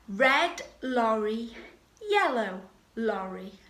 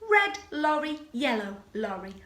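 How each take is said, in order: First: It is said slowly. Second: It is said fast.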